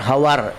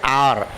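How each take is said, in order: First: The word starts with a sounded h. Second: The word starts with a silent h. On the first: The speaker calls it wrong. "We never say as H O U R hour" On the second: The speaker calls it right. "We say hour"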